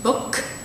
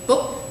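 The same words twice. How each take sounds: First: The final k is released with a puff of air. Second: The final k is not released at all. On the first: "one with it fully pronounced" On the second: "kind of the Cantonese stereotype"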